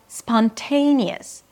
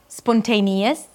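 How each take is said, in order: First: The second syllable is stressed and longest. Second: All syllables get an equal, even beat. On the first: The speaker calls it right. "The te is the primary stress, so it's the longest syllable" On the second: The speaker calls it wrong. "it's not spontaneous, ta-ta-ta-ta"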